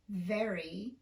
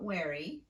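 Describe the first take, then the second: First: The word starts with a clear V sound. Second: The word starts with a W-like sound. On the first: The speaker calls it right. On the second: The speaker calls it wrong.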